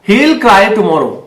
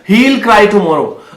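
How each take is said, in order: First: He and will merge into one short syllable. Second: He and will are said as two full words. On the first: The speaker calls it right. "आप एल करके बोलना, हील।" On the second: The speaker calls it wrong. "ही विल मत बोलो"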